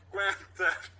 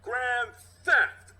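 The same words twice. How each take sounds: First: First tentative try; unsure accusation; hesitant cop voice. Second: High, loud, sure of himself; higher and louder, now certain; more reassured. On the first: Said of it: "Pauses, then more reassured". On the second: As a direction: say it like the case is closed. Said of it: "then more reassured". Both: Acted.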